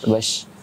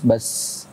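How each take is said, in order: First: The syllable ends with an sh sound. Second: The syllable ends with a plain s sound. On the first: The speaker calls it right. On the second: The speaker calls it wrong.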